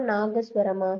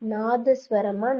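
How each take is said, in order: First: "நாகஸ்வரமா" with "ga" as second syllable; correct word form. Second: Slow "நாதஸ்வரமா" with a dental "tha" second; wrong word form. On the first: Teacher quizzes students, "நாகஸ்வரமா" with a g sound. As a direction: say "நாகஸ்வரமா" with "ga", not "da". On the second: Teacher quizzes students, slow "நாதஸ்வரமா" with dental second syllable. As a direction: say "நாதஸ்வரமா" slowly with "da", not "ga". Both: Shown as a demonstration. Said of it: "நாகசுரம் தான் சரி".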